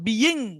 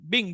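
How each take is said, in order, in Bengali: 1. এই শব্দটি দুই অক্ষরে উচ্চারিত হয়। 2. এই শব্দটি এক অক্ষরে উচ্চারিত হয়। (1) "মূল উচ্চারণটা হওয়ার কথা বিইং, কিন্তু বিইং না হবে" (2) "এটা উচ্চারণটা হবে বিং"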